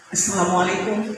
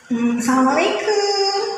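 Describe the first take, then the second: First: It is said firmly, with authority. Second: It is said softly, in a flirtatious way.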